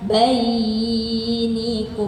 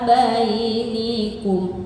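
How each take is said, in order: First: The vowel is dragged out and held long. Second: The vowel is kept at a normal length. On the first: The speaker calls it wrong. "bukan bainikum. Nah itu baru kepanjangan" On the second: The speaker calls it right. "hanya dia menyesuaikan tempo"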